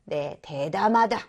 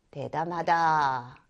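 First: Said in the usual way. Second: 대담하다 said slowly, syllable by syllable; slow model reading. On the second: Shown as a demonstration. Teacher modelling 대담하다 slowly for students. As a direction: spell out 대담하다 slow and low for the class.

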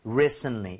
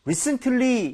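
First: "recently" as RE-sn-lee, stress up front; "recently" low, first syllable stressed, T dropped; front stress, silent T. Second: "recently" with an audible T, RE-sn-TUH-lee; T fully pronounced. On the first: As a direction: hit the start of "recently", swallow the T. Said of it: "앞쪽에 좀 어, 아, 강세를 실어서". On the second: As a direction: sound out the T in "recently". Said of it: "이렇게 발음을 하시는 분들이". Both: Shown as a demonstration.

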